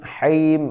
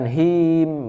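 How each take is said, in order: First: The h sound comes from deep in the throat. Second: The h sound is a plain, light breath. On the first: The speaker calls it right. "tapi haim di tenggorokan ya" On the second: The speaker calls it wrong. "bukan him"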